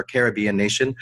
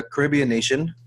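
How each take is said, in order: First: "Caribbean" as CARE-ib-ee-un, stress on the first syllable; other way to say Caribbean. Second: "Caribbean" as kuh-RIB-ee-un, stress on the second syllable; one way to say Caribbean. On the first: Host correcting himself, stressing CARE-ib-bean. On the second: Host introducing the country, stressing ca-RIB-bean. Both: Shown as a demonstration. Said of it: "or Caribbean nation".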